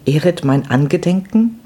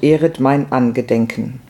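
First: Higher, puzzled echo with rising end; disconcerted querying tone; taken aback. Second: Said in the usual way. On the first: A narrator's reading. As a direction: repeat it as a baffled question. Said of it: "wiederholte sie befremdet".

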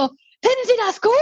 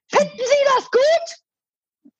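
First: Mimicking the man. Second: Much higher and very slow, sneering; mocking high drawn-out man's voice. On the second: Imitating the angry dog-walker's smug tone to me. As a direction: stretch it out high like a smug scold. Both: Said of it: "Also wirklich in dem Ton".

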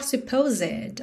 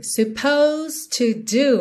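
First: "supposed" wrongly as "suh-poh-ZED"; mispronounced supposed. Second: Slow "supposed" as "suh-POHZD"; silent E. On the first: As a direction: sound the last E of "supposed". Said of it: "nada de falar supposed". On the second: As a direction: keep "supposed" to two syllables. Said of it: "esse E aí não é pronunciado". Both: Shown as a demonstration.

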